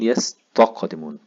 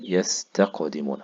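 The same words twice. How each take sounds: First: The t sound is heavy and emphatic. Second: The t sound is light and plain.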